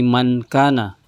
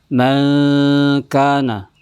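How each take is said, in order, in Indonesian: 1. Bunyi n diucapkan dengan jelas menggunakan lidah. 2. Bunyi n tersamar dalam dengung sengau. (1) "jadi bukan lagi mankana" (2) "dibaca ikhfa, yaitu disamarkan"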